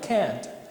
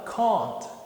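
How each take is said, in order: First: It is said in an American accent. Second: It is said in a British accent. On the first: "eu pronuncio exatamente como um americano" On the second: "o britânico vai falar can't"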